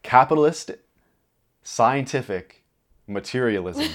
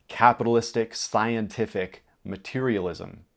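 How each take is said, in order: First: It is said in a grand, authoritative tone. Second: It is said in a casual, conversational tone.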